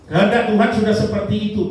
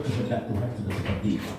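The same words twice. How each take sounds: First: Loud, high and quick declaration; emphatic preaching. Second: Said in the usual way. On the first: Real, not acted. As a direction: proclaim it forcefully to the congregation, pitched high. Repeats it forcefully to the congregation. (menegaskan dengan lantang dan bernada tinggi)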